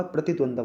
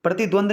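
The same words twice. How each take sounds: First: प्रतिद्वंद्व with a final v, "dvandva"; correct pronunciation. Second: प्रतिद्वंद ending in a plain "dvand"; wrong pronunciation. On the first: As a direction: sound the v at the end of प्रतिद्वंद्व. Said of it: "प्रतिद्वंद्व होगा". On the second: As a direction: show प्रतिद्वंद without the final v, as the error. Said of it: "प्रतिद्वंद नहीं होता". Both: Shown as a demonstration.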